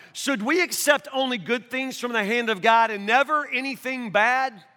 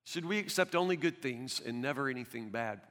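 First: Said in the usual way. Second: Much softer and lower, almost under the breath; soft, reflective echo of the line; hushed repeat. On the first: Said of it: "quote read, then repeated softly". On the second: Shown as a demonstration. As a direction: let it sink in quietly. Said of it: "quote repeated softly".

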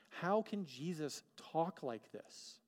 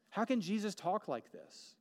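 First: Slow wonder. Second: Rising wonder. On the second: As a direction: build the question up in awe. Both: Real, not acted.

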